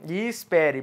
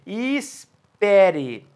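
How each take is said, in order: First: Said in the usual way. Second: Slow, lingering wait; drawn out and slow. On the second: Shown as a demonstration. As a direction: stretch e espere out very slowly, like a pause. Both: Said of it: "solte os braços cruzados".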